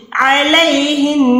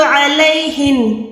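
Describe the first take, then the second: First: علیہن with the doubled نون drawn out and nasal; long nasal ending. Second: علیہن said with a short plain نون, no ghunna; wrong short take of علیہن; short unstressed ending. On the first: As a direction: hold the ghunna in علیہن, very slow. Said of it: "شد کی وجہ سے لمبا کر رہی ہوں". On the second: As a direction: clip the نون in علیہن as if it were only ساکن. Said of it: "صرف ساکن ہوتا تو". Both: Shown as a demonstration.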